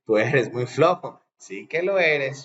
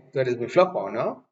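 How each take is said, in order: First: SÍ QUE LO ERES as a firm confirmation; statement, not asking. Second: NO lifted at the end as a question; asking tag. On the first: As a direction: affirm it, drawing out SÍ QUE LO ERES without questioning. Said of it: "cuando no estoy preguntando o no, sino quiero decir". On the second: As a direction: state it, then check with a rising NO. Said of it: "cuando no estoy preguntando o no". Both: Shown as a demonstration.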